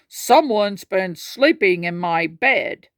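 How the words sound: It is said in a deep, gruff voice.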